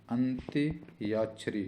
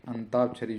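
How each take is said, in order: First: अंत्याक्षरी slowly, with a clear ya after त; correct pronunciation. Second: अंताक्षरी with no y sound; common wrong form. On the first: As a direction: sound out अंत्याक्षरी in parts. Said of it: "तो अंत्याक्षरी". (अंत्याक्षरी धीरे, 'य' साफ़ बोलकर) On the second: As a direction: say अंताक्षरी, ता straight after अं. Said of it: "जो होती है". (अंताक्षरी बिना 'य' की ध्वनि के) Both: Shown as a demonstration.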